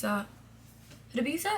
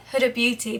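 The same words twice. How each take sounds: First: HUDA BEAUTY slow and soft, rising on BEAUTY; questioning. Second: Said in the usual way. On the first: Real, not acted. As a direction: query BEAUTY with a drawn-out, quiet upturn. Checks brand name, then restates it.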